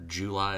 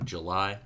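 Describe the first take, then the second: First: "July" with a full "joo" first syllable; personal pronunciation. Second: Said in the usual way. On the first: Real, not acted. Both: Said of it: "as I say".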